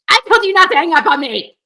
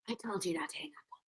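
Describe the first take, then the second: First: It is said with heavy, screaming intensity. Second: It is said in a lighter, calmer way.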